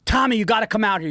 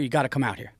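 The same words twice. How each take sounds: First: Called out higher and louder, urgently; mock yell of a family member summoning Tommy; retold screaming. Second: Said in the usual way. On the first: Relatives outside screaming for Tommy, mock yell. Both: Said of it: "and they're screaming".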